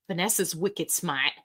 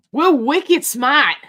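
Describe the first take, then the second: First: Said in the usual way. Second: Put-on slow, loud Boston accent with dropped r on smart; hammed-up Boston "We're wicked smart", wicked stretched out and smart said smah. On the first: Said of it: "I just like to say wicked". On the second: For Vanessa from Boston, a slow loud Boston accent. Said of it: "Vanessa is from the Boston area".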